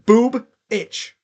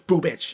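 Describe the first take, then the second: First: The name splits after the first b sound. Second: The name is said smoothly without a split. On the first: The speaker calls it wrong. "It sounds like you're saying boob itch" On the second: The speaker calls it right. "but it's boobich"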